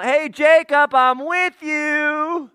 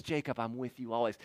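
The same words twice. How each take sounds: First: High, drawn-out far-calling shout; yelling down. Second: Soft, lowered, close-by voice; quiet nearby reassurance. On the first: God at the top of the ladder calling to Jacob, yelling down. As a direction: holler it down from way up high. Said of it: "yelling down". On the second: Jesus standing by Jacob at the ladder, quiet reassurance. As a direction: say it gently to someone right beside you. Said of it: "stands there and says". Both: Acted.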